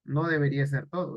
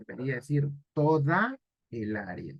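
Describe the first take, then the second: First: Said in the usual way. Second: Teacher correcting "todo" to "toda"; stress on toda. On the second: Shown as a demonstration. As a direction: lean on "toda" with a falling tune. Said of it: "Aquí el error es todo".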